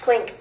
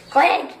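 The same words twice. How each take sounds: First: Said in the usual way. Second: Excited clink. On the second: Shown as a demonstration. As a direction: call it out with a bounce. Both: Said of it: "just clink it".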